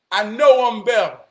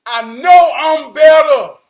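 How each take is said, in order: First: Said in the usual way. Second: Slow, loud declaration, every word hit; emphatic shout. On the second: Real, not acted. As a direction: shout it slowly like a vow. Repeats line, second time shouted.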